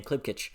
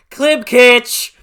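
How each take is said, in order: First: Said in the usual way. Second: Shouts the name, high and loud with joy; thrilled cry of the name; excited shout. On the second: Real, not acted. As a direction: burst out with the name like a fan. Gushing about favorite character.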